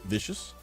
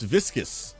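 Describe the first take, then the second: First: The middle has no K sound, like vicious. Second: The middle has a clear K sound, like viscous. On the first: The speaker calls it wrong. "Am I even saying that right?" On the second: The speaker calls it right. "Oh, it's viscous"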